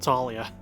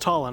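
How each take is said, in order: First: The name is said with three syllables. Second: The name is said with two syllables. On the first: The speaker calls it wrong. "I was completely mispronouncing that" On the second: The speaker calls it right. "it's Tala"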